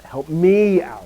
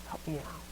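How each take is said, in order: First: ME stretched, high and loud; overdone stress on a long, loud ME; emphatic ME. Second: Very soft, with "me" tucked away unstressed; quiet, no weight on ME; de-emphasized ME. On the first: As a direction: punch "me" hard and hold it. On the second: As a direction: toss off "me" as a tiny unaccented word. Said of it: "So he's like". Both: Shown as a demonstration.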